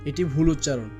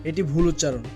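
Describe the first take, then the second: No difference in how they are said.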